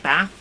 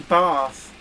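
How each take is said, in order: First: The word is said in a plain accent. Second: The word is said in a posh accent. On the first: The speaker calls it wrong. "Don't say Bath" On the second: The speaker calls it right. "I'm posh. I say Bath"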